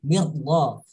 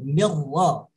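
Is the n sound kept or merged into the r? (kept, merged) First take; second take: merged; merged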